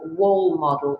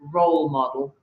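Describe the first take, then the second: First: The first word begins with a W sound. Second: The first word begins with an R sound. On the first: The speaker calls it wrong. "He says, for example, wall model" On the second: The speaker calls it right. "instead of role model"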